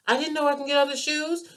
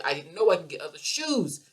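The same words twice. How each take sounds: First: "other" lifted high with a rising tune; "other" stressed, voice jumping up; emphatic repeat. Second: Said in the usual way. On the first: Shown as a demonstration. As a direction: say it again much higher, leaning on "other". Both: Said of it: "repeated for emphasis".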